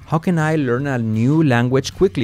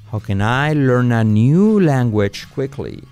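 First: The sentence is spoken at a normal pace. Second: The sentence is spoken at a slower pace.

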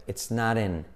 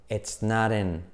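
The two takes are said the same way.

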